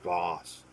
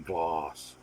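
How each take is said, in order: No difference in how they are said.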